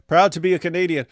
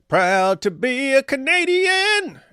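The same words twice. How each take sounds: First: Said in the usual way. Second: Slow, high, sung like an anthem; sung line. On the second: Shown as a demonstration. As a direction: sing it like a proud anthem. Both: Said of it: "it actually works".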